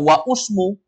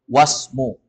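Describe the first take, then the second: First: A 'u' vowel is sounded before 'smu'. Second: No vowel is sounded before 'smu'. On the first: The speaker calls it wrong. "apalagi dibaca wa usmu" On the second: The speaker calls it right. "hamzah wasol gak dibaca. Langsung masuk ke huruf berikutnya"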